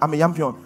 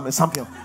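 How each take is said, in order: First: It is said in an Igbo accent, 'yampion'. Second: It is said without the accent, 'champion'.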